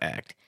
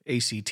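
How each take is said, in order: First: It is said as a single ordinary word. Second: It is spelled out as three separate letters. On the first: It names the mouthwash brand. The speaker calls it wrong. "not act" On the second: It names the college entrance exam. The speaker calls it right. "ACT, not act"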